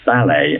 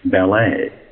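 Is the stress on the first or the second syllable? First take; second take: first; second. First: The stress falls on the first syllable. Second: The stress falls on the second syllable. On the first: This is the British way. "Brits say" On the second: This is the American way. "Americans insist on"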